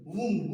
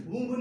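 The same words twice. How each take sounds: First: वुम्ब said as "woom"; silent B in वुम्ब. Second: वुम्ब loud, with a released b; B sounded in वुम्ब. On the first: Teacher revising, showing the right reading with b silent. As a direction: end वुम्ब on m, no b. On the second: Teacher rejecting the misreading, final b pronounced loudly. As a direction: say वुम्ब wrongly, punching the final b. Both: Shown as a demonstration. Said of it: "वुम्ब नहीं".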